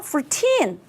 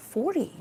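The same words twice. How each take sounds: First: Put-on "fourteen" with the weight on "-teen"; stress on teen. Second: "forty" with the weight on "for", a soft "-ty"; stress on for. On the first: Teacher contrasting "fourteen" with "forty". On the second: Teacher contrasting "forty" with "fourteen". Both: Shown as a demonstration. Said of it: "달라요".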